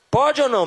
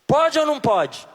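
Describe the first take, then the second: First: Said in the usual way. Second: Insistent demand. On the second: Shown as a demonstration. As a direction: demand the answer from the crowd. (pergunta exigente, mais alta) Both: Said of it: "Me responda".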